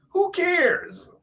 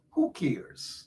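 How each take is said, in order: First: Much higher, mocking "Who cares?"; mock the commenter's "Who cares?" in a squeaky, high voice; mocking quote. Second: Said in the usual way. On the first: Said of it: "what he means by". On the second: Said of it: "[name] is saying".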